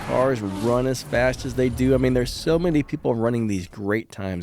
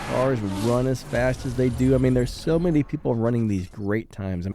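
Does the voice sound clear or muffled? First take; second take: clear; muffled. First: The voice sounds clear and equalized. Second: The voice sounds muffled and unprocessed. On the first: "the second clip" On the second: "the first clip"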